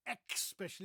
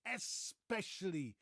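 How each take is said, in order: First: "especially" as ek-SPESH-uh-lee; "especially" said as if it had an x; mispronounced especially. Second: Slow "especially" as es-PESH-uh-lee; stretched es at the start of "especially"; correct especially. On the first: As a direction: put a wrong k sound in "especially". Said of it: "It's not". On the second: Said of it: "there's no X". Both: Shown as a demonstration.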